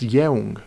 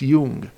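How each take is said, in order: First: The vowel glides from e to u. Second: The vowel is a single plain u. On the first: The speaker calls it wrong. "it's spelled like it's pronounced jeung, which it is not" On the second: The speaker calls it right. "It is pronounced jung"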